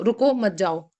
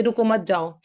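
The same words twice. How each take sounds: First: रुको, short break, then मत जाओ; pause after रुको. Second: रुको मत जाओ run together; no gap anywhere in रुको मत जाओ; no comma pause. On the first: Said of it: "हम बोल रहे हैं". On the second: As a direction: say रुको मत जाओ in one go, without a break. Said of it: "या फिर आप बोल दीजिए". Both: Shown as a demonstration.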